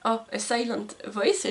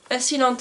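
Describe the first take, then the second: First: "A Silent Voice" with English "sailent" and "voice", slow and careful; careful English title. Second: "A Silent" said the French way, as "silan"; French-style English title. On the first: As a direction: slowly sound out "A Silent Voice" the English way. (« A Silent Voice » articulé lentement avec l'accent anglais) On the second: ("A Silent" prononcé à la française, « silan ») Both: Real, not acted. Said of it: "excusez mon accent anglais".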